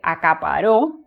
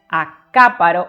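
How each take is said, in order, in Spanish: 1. La tónica está en la última sílaba. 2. La tónica está en la antepenúltima sílaba.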